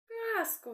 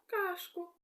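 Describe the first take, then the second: First: The middle consonant is an s sound. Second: The middle consonant is an sh sound. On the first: The speaker calls it right. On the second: The speaker calls it wrong.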